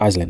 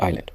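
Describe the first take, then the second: First: The S sound is pronounced. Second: The S sound is silent. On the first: The speaker calls it wrong. "On ne dit pas" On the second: The speaker calls it right. "la lettre S"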